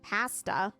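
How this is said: Pasta is said with the Canadian vowel. "most Canadians say pa pas pasta"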